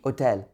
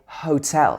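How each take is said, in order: First: The word starts without an h sound. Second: The word starts with an h sound. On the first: The speaker calls it right. "In French, it would be hôtel" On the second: The speaker calls it wrong. "We wouldn't say hotel"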